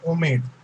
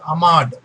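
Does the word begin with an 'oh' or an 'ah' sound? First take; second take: oh; ah. First: The word begins with an 'oh' vowel. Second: The word begins with an 'ah' vowel. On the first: The speaker calls it wrong. "they say it Omed" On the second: The speaker calls it right. "Actually, it is Ahmad"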